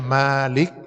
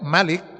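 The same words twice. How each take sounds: First: The vowel after the m is long. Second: The vowel after the m is short. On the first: It means owner or possessor. "panjang, dipanjangkan mimnya" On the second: It means king. "kalau dibaca mimnya pendek"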